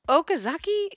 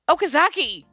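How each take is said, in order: First: The name is called softly and quietly. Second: The name is called out loudly. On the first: "I tried calling him in a quiet voice" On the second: "I raised my voice louder than before"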